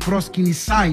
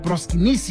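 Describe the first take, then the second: First: It is said in an older Greek pronunciation. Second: It is said in a modern Greek pronunciation.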